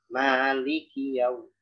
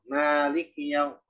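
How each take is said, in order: First: The i after the k is clearly pronounced. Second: The k has no vowel after it. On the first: The speaker calls it right. "memperjelas asrof lam dan kafnya itu" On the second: The speaker calls it wrong. "kadang kafnya disukun"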